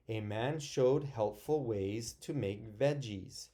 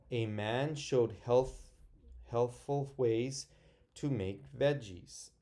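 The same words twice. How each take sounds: First: Said in the usual way. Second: Stumbling slowly over each word, broken by pauses; halting first read. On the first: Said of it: "so I'm gonna read it again". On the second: Shown as a demonstration. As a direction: read it haltingly, tripping on healthful. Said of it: "I got stuck there".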